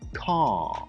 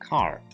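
First: British accent; the stressed vowel is longer. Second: American accent; the stressed vowel is shorter.

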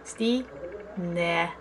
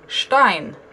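First: The name is said unlike the English surname. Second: The name sounds like the English surname Stein. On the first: The speaker calls it right. "with correct pronunciation, it sounds like Stine" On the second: The speaker calls it wrong. "Stein isn't how it's pronounced at all"

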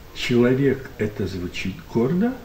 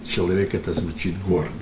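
First: It is said as a question. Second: It is said as a plain statement. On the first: "он спросил, он не утверждал" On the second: "знаменитая, значит, фраза"

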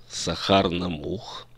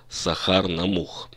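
No difference in how they are said.

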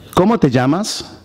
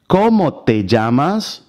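First: It is said at normal speed. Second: It is said slowly.

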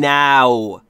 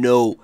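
First: The vowel sounds like 'ow'. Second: The vowel sounds like 'oh'. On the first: The speaker calls it right. "این now" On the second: The speaker calls it wrong. "خیلی ها من شنیدم میگن no"

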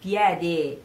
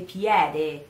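Both takes have the same delivery.

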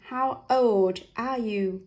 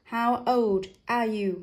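First: The d of old is kept separate from are. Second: The d of old is kept separate from are.

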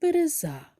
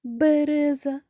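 First: The stress is on the third syllable. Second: The stress is on the first syllable. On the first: "чи третій" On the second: "Перший"

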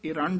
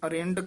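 First: The word begins with an 'i' vowel. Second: The word begins with an 'a' vowel. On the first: The speaker calls it right. "ਇਰੰਡ ਉਚਾਰਨ ਕਰਨਾ ਹੈ" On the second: The speaker calls it wrong. "ਇਸ ਨੂੰ ਅਰੰਡ ਕਹਿ ਜਾਂਦੇ ਹਨ"

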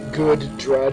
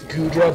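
First: The name is said a deliberately silly, altered way. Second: The name is said the ordinary, standard way. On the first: This pronunciation is a joke. The speaker calls it wrong. "I like to say Goodra just to be silly" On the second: This is the real pronunciation. The speaker calls it right. "It's Goodra"

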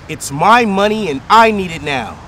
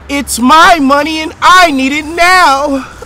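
First: It is said flatly, without much feeling. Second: It is said with intense, over-the-top emotion.

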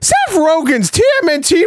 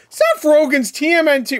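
First: It is said more loudly. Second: It is said fairly quietly.

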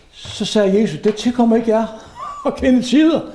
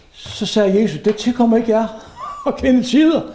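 No difference in how they are said.

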